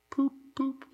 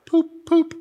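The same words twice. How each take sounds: First: Soft, high-pitched dreamy toots; faint murmur. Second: Imitated horn toots, high-pitched; metallic car horn. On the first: A narrator's reading. Narrator voicing Toad sitting dazed in the road, faint high murmur. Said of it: "he faintly murmured". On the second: Preacher acting out a motor car horn, high metallic toots. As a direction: voice two high honks of an old motor horn. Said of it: "this metallic poop, poop sound".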